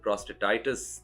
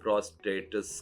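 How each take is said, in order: First: The word ends with an '-aitis' sound. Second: The word ends with an '-etis' sound. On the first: The speaker calls it right. "तुम यूरोलॉजिस्ट को यूरोलॉजिस्ट बोलो और प्रोस्टेटाइटिस" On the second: The speaker calls it wrong. "अजीब-सा pronounce कर रहा है"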